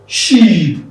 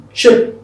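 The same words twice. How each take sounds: First: "Sheep" with long falling EE; long-vowel sheep. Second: "Sheep" said as short "shep", higher; short E replacing EE in "Sheep"; shape-like vowel. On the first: Teacher drilling the contrast, "Sheep" with long EE. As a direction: stretch the EE in "Sheep". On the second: Teacher drilling the contrast, "Sheep" as higher, short "shep". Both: Shown as a demonstration. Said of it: "But here you have sheep".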